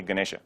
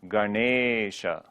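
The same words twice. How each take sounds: First: Ganesha said quickly as "guh-nesh-uh"; short e in Ganesha. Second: Ganesha with the middle e stretched, "ga-neee-sha"; long e in Ganesha. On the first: Teacher showing what you don't say, short-e Ganesha. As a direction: cut the middle e of Ganesha short. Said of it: "you don't say". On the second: Teacher showing when you say the word, long-e Ganesha. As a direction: draw out the e of Ganesha slowly. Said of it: "you don't say Ganesha". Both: Shown as a demonstration.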